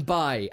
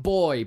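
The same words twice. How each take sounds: First: Put-on "bye" said for boy, vowel as in "eye"; dialect pronunciation of boy. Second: Said in the usual way. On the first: Shown as a demonstration. Podcaster praising an actor's research, dialect "bye" for boy. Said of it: "To throw in bye and not boy". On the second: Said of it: "and not boy, but bye".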